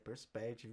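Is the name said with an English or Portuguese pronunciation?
English. The name is said with an English pronunciation. This is how the clients say the name. "estão falando que a empresa é Perspective"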